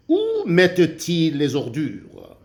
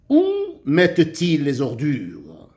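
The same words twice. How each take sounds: First: Said in the usual way. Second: Où mettent-ils les ordures? read with a questioning tune, mettent-ils lifted. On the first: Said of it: "Comment dois-tu la lire?". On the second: Shown as a demonstration. Teacher modelling how to read it for pupils, questioning tune. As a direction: ask it like a real question to the class. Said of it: "Je dois lire cette phrase comme une question".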